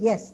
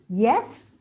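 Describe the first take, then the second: First: The pitch falls on the word. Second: The pitch rises on the word. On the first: The speaker agrees. "yes means you agree" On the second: It is a question. "it becomes a question"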